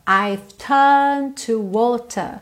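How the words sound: The R sounds in 'turned' and 'water' are dropped.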